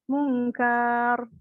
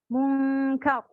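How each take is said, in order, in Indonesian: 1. Vokal suku kata kedua dipanjangkan. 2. Suku kata kedua dipotong pendek. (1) "dipanjangin karnya" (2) "langsung mati"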